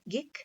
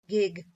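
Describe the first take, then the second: First: The final consonant is voiceless. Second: The final consonant is voiced.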